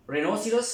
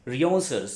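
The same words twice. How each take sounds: First: Rhinoceros said as "re-no-si-ros", rising at the end; first pronunciation. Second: Rhinoceros said as "ri-on-sur", falling at the end; second pronunciation. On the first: Teacher showing students the first way to say rhinoceros, as ree-NO-si-ros. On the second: Teacher showing students the second way to say rhinoceros, as ree-ON-sur. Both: Shown as a demonstration. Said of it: "ये दो, pronunciation".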